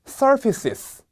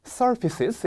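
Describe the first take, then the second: First: "surfaces" with a clear sis sound at the end; full plural ending. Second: "surfaces" again, ending sis sound; full plural ending. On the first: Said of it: "제가 읽으면 따라해 보실게요". (surfaces 끝을 sister의 sis처럼 발음) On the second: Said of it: "sis 같은 소리가 나야 돼요". (surfaces 끝의 sis 소리를 다시 시범) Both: Shown as a demonstration.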